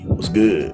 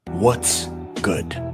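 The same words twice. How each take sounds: First: It is said with a hood pronunciation. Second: It is said in a plain, standard way.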